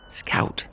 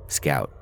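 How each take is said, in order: First: Sharp unvoiced hiss of a name; whispered urgent hiss. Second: Said in the usual way. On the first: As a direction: hiss it across the aisle, urgent. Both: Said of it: "I hiss across the aisle".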